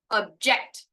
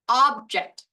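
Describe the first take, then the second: First: The stress is on the second syllable. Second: The stress is on the first syllable. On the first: It means to disagree. "The second one ... this is to disagree" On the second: It names a thing. "The first version ... This is a thing"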